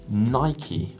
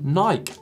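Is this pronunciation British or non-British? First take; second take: non-British; British. First: It is pronounced the non-British way. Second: It is pronounced the British way.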